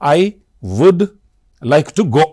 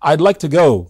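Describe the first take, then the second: First: Would is said in full. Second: Would is contracted to I'd. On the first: The speaker calls it wrong. "దాన్ని పూర్తిగా నేను I వుడ్ like to go అనను" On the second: The speaker calls it right. "I apostrophe D పెట్టి ఐడ్"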